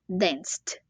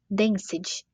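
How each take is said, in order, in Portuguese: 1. O E é mudo, resultando em uma sílaba só. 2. O E é pronunciado como uma sílaba extra. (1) "a gente fala danced, como se esse E não existisse" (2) "Uma dica de pronúncia aqui é a gente não pronunciar esse E. Em vez de falar danced"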